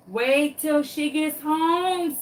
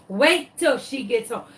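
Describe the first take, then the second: First: Drawn-out, higher mocking warning; slow taunt. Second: Said in the usual way. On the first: Dog taunting the lost chicken, slow mock sing-song. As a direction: stretch it out slowly like a gleeful threat.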